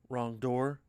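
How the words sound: The voice rises at the end, like a question. The speaker is asking whether it is the wrong door. The speaker calls it wrong. "Shouldn't have said it like a question"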